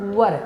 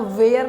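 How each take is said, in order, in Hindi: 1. यह शब्द छोटे 'er' स्वर के साथ बोला जाता है। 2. यह शब्द लंबे 'air' स्वर के साथ बोला जाता है। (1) "इसको वर पढ़ना है।" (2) "वेयर नहीं होता है।"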